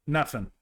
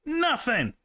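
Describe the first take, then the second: First: Said in the usual way. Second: High exclaiming Nothing. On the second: Real, not acted. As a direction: cry out Nothing, pitch jumping up. Calls again, louder, no answer.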